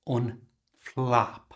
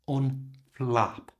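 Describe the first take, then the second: Both takes have the same delivery.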